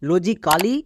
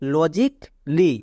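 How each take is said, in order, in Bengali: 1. k এবং l এর মাঝে একটি স্বরধ্বনি শোনা যায়। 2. k এবং l এর মাঝে কোনো স্বরধ্বনি শোনা যায় না। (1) "লজিক্যালি বা বেসিক্যালি বলবো না, তাহলে ভুল হয়ে যাবে" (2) "এদেরকে আমরা এভাবে উচ্চারণ করব"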